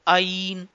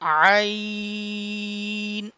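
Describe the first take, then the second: First: The opening sound starts with a sudden catch. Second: The opening sound is drawn out smoothly. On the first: The speaker calls it wrong. "हमजा के साउंड में jerking sound आता है" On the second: The speaker calls it right. "इसको stretching sound के साथ रीड करेंगे"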